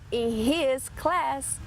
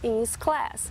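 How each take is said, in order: First: The word 'his' starts with a clear H sound. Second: The word 'his' starts with no H sound. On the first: "Ao invés de falar in his class" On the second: "eles podem dizer in his class"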